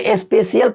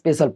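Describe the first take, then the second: First: It is said as 'spe-shee-al' with an 'ee' sound. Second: It is said as 'spe-shul' with no 'ee' sound. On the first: The speaker calls it wrong. "अगर इसको आप फेशियल पढ़ते हो तो इसको स्पेशियल पढ़ना चाहिए" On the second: The speaker calls it right. "इसको स्पेशल पढ़ते हैं"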